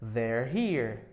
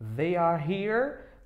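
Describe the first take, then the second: First: They are is contracted into one syllable. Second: They are is said as two full words. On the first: "a contração there ou they are" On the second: "Você fala they are"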